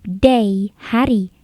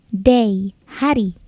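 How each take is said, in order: Both takes have the same delivery.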